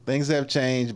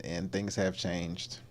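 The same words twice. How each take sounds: First: Said in the usual way. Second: Much softer, slow and resigned; soft resigned murmur. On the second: Real, not acted. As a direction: let it sink, quietly giving up. Somber aside on changed times.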